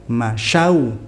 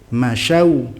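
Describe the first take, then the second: The two takes are said the same way.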